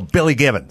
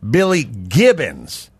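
First: The name is rushed and the B is soft. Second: The name is careful and the B is crisp. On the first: "They say it fast. Yeah, they don't hit it hard sometimes" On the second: "with a B"

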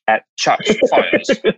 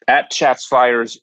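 First: It is said with a British accent. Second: It is said with an American accent. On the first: "in British English" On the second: "in US English"

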